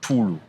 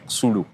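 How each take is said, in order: First: The name begins with a T sound. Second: The name begins with an X sound. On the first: The speaker is following how the person says their own name. The speaker calls it right. "X ... is pronounced as T. So the name is Samkelo, then you say Tulu" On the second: The speaker is reading the spelling literally. The speaker calls it wrong. "someone could go and say Xulu because he has seen X"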